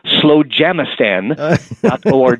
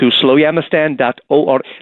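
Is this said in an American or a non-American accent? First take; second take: American; non-American. First: It is said in an American accent. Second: It is said in a non-American accent.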